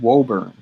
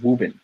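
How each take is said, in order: First: It is said in a general, non-local pronunciation. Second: It is said in a clipped local Boston pronunciation.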